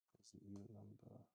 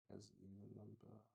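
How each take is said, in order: Both takes have the same delivery.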